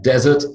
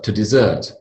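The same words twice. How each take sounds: First: Desert stressed at the front, DEZ-ert; noun desert. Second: Desert stressed at the end, di-ZERT; verb desert. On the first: Teacher defining the dry place, front-stressed desert. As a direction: say desert with stress on the first syllable. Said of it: "a dry place like the Sahara". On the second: Teacher introducing the verb, end-stressed desert. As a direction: say desert with stress on the second syllable. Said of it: "The verb". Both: Shown as a demonstration.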